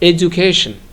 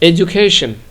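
First: The middle consonant sounds like a 'j'. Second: The same.

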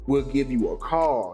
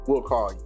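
First: It is said with energy behind it. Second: It is said in a dry, flat way.

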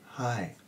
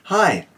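First: It is said softly and quietly. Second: It is said at normal talking loudness. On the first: "Now say it softly. That means quietly" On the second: "That's your talking voice"

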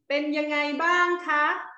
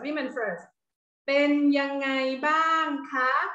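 First: The phrase is said at a faster pace. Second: The phrase is said at a slower pace.

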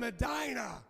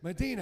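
First: The name is said the local way. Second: The name is said the GPS way. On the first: The speaker calls it right. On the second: The speaker calls it wrong.

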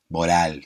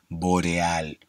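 First: The middle E is swallowed, with little lip movement. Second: The middle E is clear, with the mouth wide open. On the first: The speaker calls it wrong. "si no terminamos diciendo boreal, boral" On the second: The speaker calls it right. "hay que mover bien los labios, abrir bien la boca y que se entienda"

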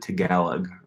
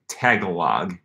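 First: The stress is on the second syllable. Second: The stress is not on the second syllable. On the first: This is how the speaker has always said it. "I've always called it Tagalog" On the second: This is how the spelling suggests it is said. "it looks like Tagalog"

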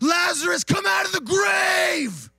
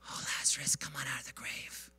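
First: It is shouted very loudly. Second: It is whispered very softly.

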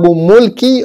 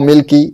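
First: The first vowel is a rounded 'u' sound. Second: The first vowel is a front 'i' sound. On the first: "بضم الميم" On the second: "وبكسرها"

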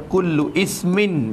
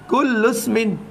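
First: The second word starts separately with a glottal i. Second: The u runs straight into smin without a break. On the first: The speaker calls it wrong. "Tu jadi tak kena baca" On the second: The speaker calls it right. "Bila kita baca sambung lagu tu"

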